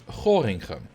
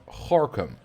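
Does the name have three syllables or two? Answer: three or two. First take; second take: three; two. First: Every letter is sounded, giving three syllables. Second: The middle is dropped, giving two syllables. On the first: This follows the spelling. "the way you would pronounce that word is Gorinchem" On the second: This is the actual local pronunciation. "it's pronounced Gorkum"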